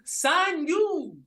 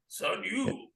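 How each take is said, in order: First: It is said in a plain voice. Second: It is said in a low, grumbly voice.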